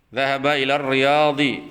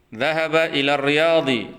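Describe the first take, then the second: Both takes have the same delivery.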